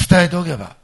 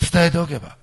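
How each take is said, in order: Both takes have the same delivery.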